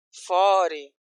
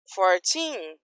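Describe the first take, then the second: First: Forty with FOR drawn out, weak TY; "forty", strong start fading off; stress on FOR. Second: Put-on fourteen with the final TEEN drawn out; "fourteen", long stressed ending. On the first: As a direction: lean on the first syllable of "forty". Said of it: "a energia acaba no começo". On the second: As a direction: lean on the second syllable of "fourteen". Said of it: "tem força pra ir até o final". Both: Shown as a demonstration.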